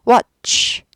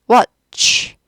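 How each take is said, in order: Both takes have the same delivery.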